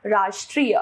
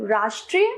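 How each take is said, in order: First: Said in the usual way. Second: राष्ट्रीय as a mistaken form, ending raised; wrong pronunciation. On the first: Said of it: "इसका शुद्ध रूप". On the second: Shown as a demonstration. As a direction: show the faulty राष्ट्रीय with a rising end. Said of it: "अशुद्ध रूप".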